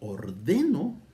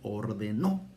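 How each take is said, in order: First: The stress is on the middle syllable. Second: The stress is on the last syllable. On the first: "ordeno no lleva acento" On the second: "lleva acento en la última o"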